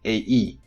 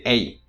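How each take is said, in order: First: The two vowel parts are said as separate syllables. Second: The two vowel parts glide together into one syllable. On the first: The speaker calls it wrong. "So you don't pronounce it A E" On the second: The speaker calls it right. "you say A"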